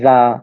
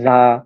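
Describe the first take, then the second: No difference in how they are said.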